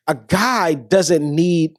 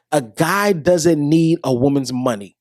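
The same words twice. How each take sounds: First: Slow, each word weighed; slow emphasis. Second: Slow confiding whisper. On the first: To viewers about men's money, slow weighty emphasis. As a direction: lay it down slowly, word by word. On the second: To viewers after clearing things up, a slow whisper. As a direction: lean in and whisper it slowly. Repeats the point after an aside. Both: Acted.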